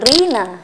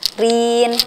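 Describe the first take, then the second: First: The word ends with an added a vowel. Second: The word ends on a plain n sound. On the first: The speaker calls it wrong. "bukan rina" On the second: The speaker calls it right. "kita jadi n gitu kan"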